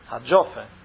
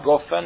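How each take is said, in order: First: It starts with a j sound and an o vowel. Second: It starts with a hard g and an o vowel. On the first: The speaker calls it right. "a gimel egy ponttal, a dagessel, akkor az dzs" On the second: The speaker calls it wrong. "Nem a goffen"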